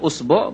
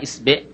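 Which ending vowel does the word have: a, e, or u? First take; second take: u; e. First: The word begins with u and ends with u. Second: The word begins with i and ends with e. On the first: "বিভিন্ন ভাবে উচ্চারণ করা হয়েছে" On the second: "বিভিন্ন ভাবে উচ্চারণ করা হয়েছে"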